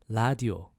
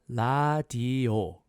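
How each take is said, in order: First: The word is said a little faster. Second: The word is said slowly and carefully.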